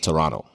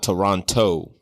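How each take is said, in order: First: The second T sound is dropped entirely. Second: The second T sound is clearly pronounced. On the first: The speaker calls it right. "you don't pronounce the T. It's Toronto" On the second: The speaker calls it wrong. "so it's not Toronto"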